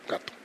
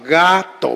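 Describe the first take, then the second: First: The word is said at normal speed. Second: The word is said slowly and drawn out.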